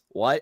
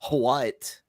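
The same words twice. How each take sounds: First: The word starts without an h sound. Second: The word starts with an audible h sound. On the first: The speaker calls it right. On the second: The speaker calls it wrong.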